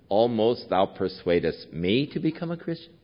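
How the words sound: It is said in a scornful, mocking tone.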